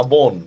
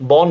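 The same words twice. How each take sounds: First: বন with a rounded closed "o", "bone"; exception's closed vowel. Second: বন drawn out with open "aw", "bawn"; wrong open vowel. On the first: Teacher showing students the exception, বন with closed "o". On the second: Teacher showing students the wrong reading, বন with open "aw". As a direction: say বন slowly as "bawn", the form to reject. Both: Shown as a demonstration. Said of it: "same, বন না".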